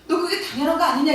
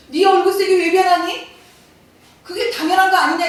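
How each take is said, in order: First: Said in the usual way. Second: Higher, louder rebuke; God confronting Cain, demanding why; God's stern question. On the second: Retold or imitated. God demands of angry Cain why his face fell, loud and higher. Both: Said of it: "하나님 뭐라고 얘기하세요".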